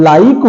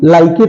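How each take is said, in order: First: "लाइक" as one syllable ending on k; silent E. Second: "लाइके" said lie-kay, final e voiced; wrong pronunciation. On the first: Teacher giving correct like, silent E. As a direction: close "लाइक" on the k, no vowel. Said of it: "लाइक होता है". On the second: Teacher showing misread like, wrong pronunciation. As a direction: end "लाइके" on an ay. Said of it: "लाइके तो होता नहीं". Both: Shown as a demonstration.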